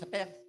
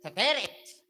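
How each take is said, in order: First: Said plainly, with no added vowels. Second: Said with extra vowels inserted between consonants.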